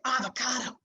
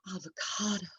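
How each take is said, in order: First: The word is said in an angry tone. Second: The word is said in a loving tone. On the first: "we are angry with it" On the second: "we love the avocado"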